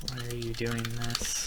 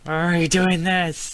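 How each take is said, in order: First: Slow, soft and drawn out; slow measured question. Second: Loud, high, drawn-out question; raised voice, pitched up; exasperated outcry. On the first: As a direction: ask it quietly, stretching the words. Slowly enters line, then exclaims it. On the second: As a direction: cry it out in exasperation. Repeats the question at the game. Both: Real, not acted.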